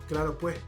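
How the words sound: It is said in a Santa Cruz accent. "if we're speaking in Santa Cruz, they say"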